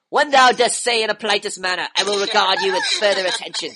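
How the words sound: It is said in a put-on Frodo voice.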